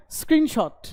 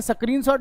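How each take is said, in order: First: स्क्रीनशॉट with S straight into KR, higher; no vowel after the S in स्क्रीनशॉट; correct pronunciation demo. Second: स्क्रीनशॉट begun as "sa-kreen"; extra vowel after S in स्क्रीनशॉट; wrong pronunciation demo. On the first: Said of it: "आधा". (स्क्रीनशॉट में स आधा बोलें) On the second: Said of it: "ये स्क्रीनशॉट नहीं है". (स्क्रीनशॉट को "सक्रीनशॉट" बोलें) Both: Shown as a demonstration.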